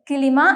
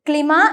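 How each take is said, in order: First: A short vowel separates the k and l. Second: The k and l form a cluster. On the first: The speaker calls it right. "കിലിമ എന്നാണ് വായിക്കേണ്ടത്" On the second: The speaker calls it wrong. "ക്ലിമ എന്നല്ല വായിക്കേണ്ടത്"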